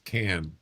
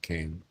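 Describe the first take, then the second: First: The vowel rhymes with 'man'. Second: The vowel rhymes with 'main'. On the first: The speaker calls it right. "It's can" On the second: The speaker calls it wrong. "not cane"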